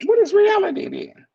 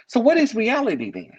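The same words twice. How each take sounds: First: "What" jumps far higher and louder, then falls; pressing rhetorical repeat. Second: Said in the usual way. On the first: Shown as a demonstration. Speaker presses his listeners on reality, much higher-pitched and louder.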